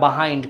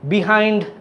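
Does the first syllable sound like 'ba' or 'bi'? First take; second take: ba; bi. First: The first syllable has a reduced 'ba' vowel. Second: The first syllable has a clear 'bi' vowel. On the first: Many people say it this way. "বাহাইন্ড করে" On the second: Many people do not say it this way. "বিহাইন্ড এটা উচ্চারণটা আবার অনেকে করে না"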